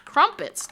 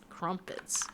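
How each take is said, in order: First: High crumpets. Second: Whispered crumpets. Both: Shown as a demonstration. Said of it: "Wait, crumpets?".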